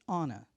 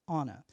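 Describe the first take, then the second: No difference in how they are said.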